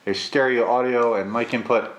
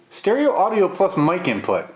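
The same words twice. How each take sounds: First: Said in the usual way. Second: Repeating it in disbelief, higher; sceptical, as if rereading the claim; incredulous. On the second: Real, not acted. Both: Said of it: "That is an interesting claim".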